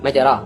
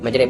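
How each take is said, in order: First: The word ends in a plain open 'a' vowel. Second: The final vowel is tilted toward an 'e' sound. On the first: "आखिर में अलिफ है" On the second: "या की तरफ थोड़ा अगर झुकाएंगे तो क्या बन जाएगा? वो मजरे बन जाएगा"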